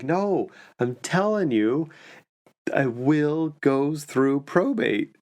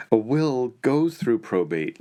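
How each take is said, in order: First: Higher, slow, dragged-out insistence; the retired CPA digs in, slowly and higher; insistent. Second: A touch of a know-it-all diner correcting his friend; lightly voiced man. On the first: Retold or imitated. Diner insisting to his friend, slow and higher-pitched. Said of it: "the guy was like". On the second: Man at next table corrects his friend, mildly voiced. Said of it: "another guy saying".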